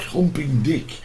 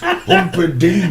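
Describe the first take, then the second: First: The name is said like 'humping dick'. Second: The name is said like 'humper-dink'. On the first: The speaker calls it wrong. "It's not Humping Dick" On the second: The speaker calls it right. "it's [name]"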